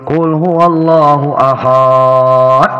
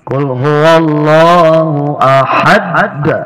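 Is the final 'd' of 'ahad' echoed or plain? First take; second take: plain; echoed. First: The final d is closed plainly without echo. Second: The final d bounces with a strong echo. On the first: The speaker calls it wrong. "banyak yang salah" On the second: The speaker calls it right. "Ada qalqala kubra"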